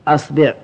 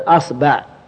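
First: The b is followed by the vowel i. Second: The b is followed by the vowel a. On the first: "والكسر" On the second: "الفتح"

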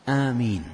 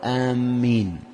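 First: The first vowel is long; the m is single. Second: The first vowel is long; the m is doubled. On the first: O God, answer the prayer. The speaker calls it right. "فهي آمين الميم مخففة والألف ممدودة وليست مجرد فتحة" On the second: Heading toward a place. The speaker calls it wrong. "ولا يقول آمين، يتغير المعنى، يعني آمين معناها قاصدين"

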